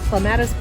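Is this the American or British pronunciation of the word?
American. It is said the American way.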